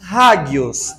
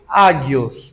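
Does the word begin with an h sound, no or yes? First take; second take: yes; no. First: The word starts with a breathy h sound. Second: The word starts directly with the vowel. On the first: "como ela tem uma aspiração em cima, então nós colocamos um H na frente" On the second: "se fosse pronunciar só transliterado sem levar em conta a aspiração áspera"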